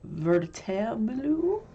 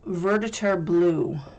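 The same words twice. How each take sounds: First: It is said with a put-on foreign accent. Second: It is said in the speaker's ordinary accent.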